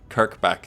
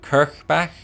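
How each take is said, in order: First: The middle consonant is a hard K sound. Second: The middle consonant is a soft, breathy ch. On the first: The speaker calls it wrong. "not a hard K. Doesn't Kirkbach doesn't sound right to me either" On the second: The speaker calls it right. "I want to say it with like a soft C H sound"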